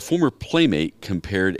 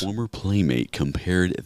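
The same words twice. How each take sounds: First: The voice is at its usual, higher pitch. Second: The voice is pitched lower and deeper.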